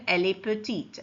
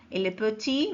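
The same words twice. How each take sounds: First: "petite" with the final t clearly sounded; feminine form. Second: "petit" with a silent final t, ending on the vowel i; masculine form. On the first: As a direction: land on the t in "petite". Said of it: "féminin". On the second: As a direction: say "petit" without the t, open ending. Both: Shown as a demonstration.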